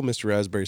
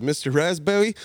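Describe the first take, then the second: First: Said in the usual way. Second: "Raspberry" with the R softened to w or l; child who can't say "Raspberry"'s R. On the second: Retold or imitated. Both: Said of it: "I couldn't say my R's".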